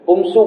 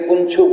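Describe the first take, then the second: First: The middle consonant is a clear s sound. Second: The middle consonant is a ch sound. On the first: The speaker calls it right. "પુંસુ બોલવાનું" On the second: The speaker calls it wrong. "એની જગ્યાએ પુંછું બોલી દીધું"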